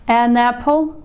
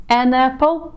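No difference in how they are said.

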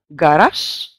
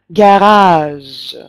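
First: The final consonant is voiceless. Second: The final consonant is voiced. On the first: "в русском языке мы скажем «гараж»" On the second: "обязательно эту «ж» озвучив"

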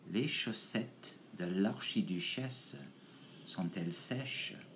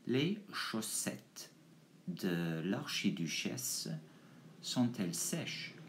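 First: It is said at a quicker pace. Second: It is said at a slower pace.

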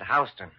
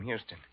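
First: The name is said the New York way. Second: The name is said the Texas way. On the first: The name of a Lower East Side street. "Except here in New York, you pronounce it Houston" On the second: The name of a famous Texan. "That's where I got my stage name"

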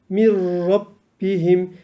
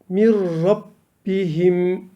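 The two takes are said the same way.

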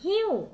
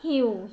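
First: The pitch falls from high to low. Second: The pitch stays low and level. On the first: "เสียงโท" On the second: "เสียงเอก"

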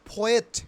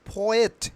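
Both takes have the same delivery.

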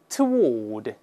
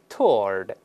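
First: The w is pronounced across two syllables. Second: The w is silent, one joined syllable. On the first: "这个英式发音呢，它把W 有发音，然后两个音节" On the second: "中间W is silent"

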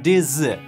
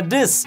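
First: The prefix ends in a voiced z sound. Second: The prefix ends in a voiceless s sound. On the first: The speaker calls it wrong. "никогда не бывает this" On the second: The speaker calls it right. "Приставка this"

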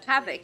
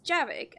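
First: The name begins with an H sound. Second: The name begins with a J sound. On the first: The speaker calls it wrong. "I always say one moment, Havik" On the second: The speaker calls it right. "But it's Javik"

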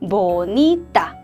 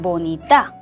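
First: The stress is on the middle syllable. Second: The stress is not on the middle syllable. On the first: The speaker calls it right. "이를 올려서 보니따 보니따 하고 읽어주면 됩니다" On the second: The speaker calls it wrong. "이렇게 읽으면 안 돼요. 보니따 혹은 보니따 하고 읽으면 안 되고요"

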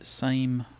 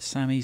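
First: The name is said with one syllable. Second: The name is said with two syllables. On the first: "some say Same" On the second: "Some call it Sami"

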